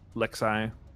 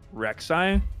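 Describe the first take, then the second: First: The name begins with an L sound. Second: The name begins with an R sound.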